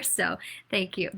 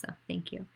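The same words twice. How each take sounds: First: Said in the usual way. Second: Whispered thanks. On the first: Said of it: "thanks, then a softer second take". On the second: Real, not acted. Candidate thanking parents and teachers, whispered softly. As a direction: breathe it out as a soft whisper. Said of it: "thanks repeated as a whisper".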